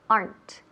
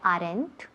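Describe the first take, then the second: First: The word is said as one syllable. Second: The word is split into two syllables. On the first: The speaker calls it right. "aren't como weren't tiene una sola sílaba" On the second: The speaker calls it wrong. "No me digáis aren't. No, muy mal"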